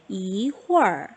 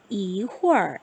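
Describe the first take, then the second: First: It ends with a curled-tongue r sound. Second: It ends with a curled-tongue r sound.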